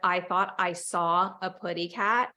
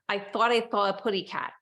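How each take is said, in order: First: The s sounds are made as clear s. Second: The s sounds come out as th sounds. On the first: The speaker calls it right. "Instead of" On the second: The speaker calls it wrong. "makes a T H sound for an S or Z"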